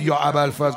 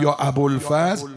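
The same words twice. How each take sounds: First: It is said with Arabic pronunciation. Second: It is said with Persian pronunciation. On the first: "اگه یکی نگفت یا ابوالفضل" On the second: "گفت یا ابوالفضل، این درسته دیگه"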